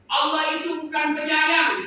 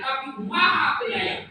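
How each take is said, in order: First: "bukan penyayang" said loud and high, falling at the end; loud setup on "bukan penyayang"; stress the negation. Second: "Maha" lifted with a rising close; emphatic "Maha" ending upward; stress on MAHA. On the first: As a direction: push out the rejected word "penyayang". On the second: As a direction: crown the phrase on "Maha Penyayang". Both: Shown as a demonstration.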